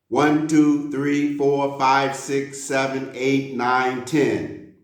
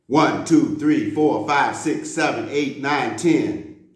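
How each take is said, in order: First: The numbers are counted at a moderate pace. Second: The numbers are counted very quickly. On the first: "Let's go a little bit faster" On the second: "We're going to go really fast this time"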